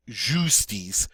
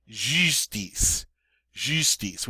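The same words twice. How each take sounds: First: "justice" as "zhoo-stees"; English-style U. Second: "justice" with rounded "ee", then "stees"; French U. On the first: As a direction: open "justice" with a plain "oo". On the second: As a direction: pucker for the first vowel of "justice". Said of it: "long E sound in English through rounded lips". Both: Shown as a demonstration.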